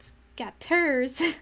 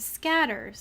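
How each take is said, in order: First: The stress is on the second syllable. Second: The stress is on the first syllable. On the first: The speaker calls it wrong. "not the second" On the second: The speaker calls it right. "it's all emphasis on the first syllable"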